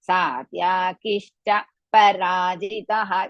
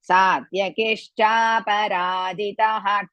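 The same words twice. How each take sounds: First: The phrase is broken by a pause midway. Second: The phrase flows together without any pause. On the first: The speaker calls it wrong. "Some people are there. ... It is wrong" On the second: The speaker calls it right.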